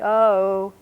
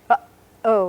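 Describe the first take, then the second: First: The two syllables run together without a catch. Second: A short catch in the voice splits the syllables. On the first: "If there were no glottal stop in the middle" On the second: "there's a little catch"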